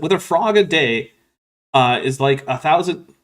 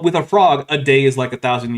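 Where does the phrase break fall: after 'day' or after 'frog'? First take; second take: after day; after frog. First: The phrase breaks after the word day. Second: The phrase breaks after the word frog.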